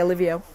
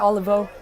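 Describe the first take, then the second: First: An extra "ee" vowel follows the v. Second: No vowel sound follows the v. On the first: The speaker calls it wrong. "I don't see any I after the V, so I'm not going to say Olivio" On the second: The speaker calls it right. "So I'm going to say Olivo. That's what it looks like"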